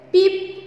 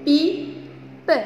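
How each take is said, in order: First: Said in the usual way. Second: "Pipe" split into pi, pause, pe; syllable by syllable. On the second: Shown as a demonstration. Teacher leading pupils in reading words, syllable by syllable. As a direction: sound out "Pipe" as pi... pe. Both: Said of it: "on va lire ensemble des mots".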